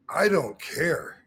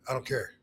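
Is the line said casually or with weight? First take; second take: weighty; casually. First: It is said with deliberate weight. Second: It is tossed off casually, without emphasis.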